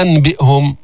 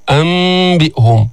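First: "أنبئهم" with a plain n sounded before b; wrong clear noon. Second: "أنبئهم" slowly, n turned into a held hidden m; correct iqlab. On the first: Teacher showing what not to say, "أنبئهم" with clear n. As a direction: say an-bi'hum, no change to m. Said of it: "لا نلفظ بها". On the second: Teacher showing correct wording, "أنبئهم" with hummed m. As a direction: hum into the b: ammm-bi'hum. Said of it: "اللفظ الصحيح". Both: Shown as a demonstration.

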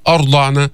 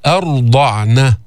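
First: أرضعن with a thick, dark opening "a"; heavy hamza, mistaken. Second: أرضعن with light "a", then thick r; heavy ra only. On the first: Teacher showing what to avoid, heavy hamza in أرضعن. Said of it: "ما تفخم الهمزة في أرضعن". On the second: Teacher showing the correct form, heavy ر in أرضعن. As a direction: slowly chant أرضعن, darkening only the ر. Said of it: "فخم الراء". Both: Shown as a demonstration.

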